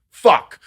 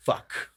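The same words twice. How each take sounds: First: FUCK shouted high and loud; emphasized FUCK. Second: Fuck parroted back softer; small imitated echo of fuck, without the punch; child echoing. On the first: Retold or imitated. Players swear at the game, emphasized FUCK. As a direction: burst out FUCK as an imitated curse. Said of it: "whenever they were emphasized yesterday". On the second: Child repeats a player's swearing, imitated echo. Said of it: "He's repeating fucking anything that is said".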